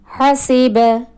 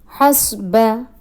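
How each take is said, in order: First: A vowel follows the s sound. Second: No vowel follows the s sound. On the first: The speaker calls it right. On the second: The speaker calls it wrong. "wrong pronunciation"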